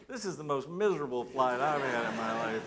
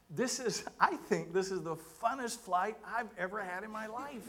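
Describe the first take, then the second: First: Exasperated inner thought. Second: High-pitched gushing praise; retold enthusiasm. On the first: Retold or imitated. Pastor thinking to himself after seatmate's praise, comically exasperated. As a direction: counter the praise with an emphatic, miserable aside. Contrary private thought about same flight. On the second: Seatmate thanking the pastor after landing, retold with high enthusiasm. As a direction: gush in a raised voice as the delighted seatmate.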